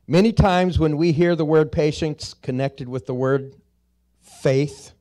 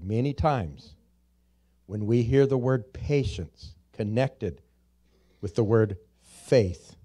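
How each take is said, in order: First: It is said at a faster pace. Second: It is said at a slower pace.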